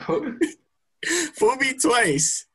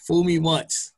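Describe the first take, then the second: First: Fool me twice broken up by laughter, high and slow; laughing mock cry. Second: Said in the usual way. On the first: Shown as a demonstration. Friend jokingly laments being fooled again, laughing.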